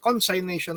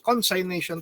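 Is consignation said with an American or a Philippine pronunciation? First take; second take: American; American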